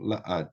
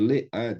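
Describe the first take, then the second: First: The preposition is said with an 'a' vowel. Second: The preposition is said with an 'e' vowel. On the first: "eu tenho la ad" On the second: "em vez de le ad"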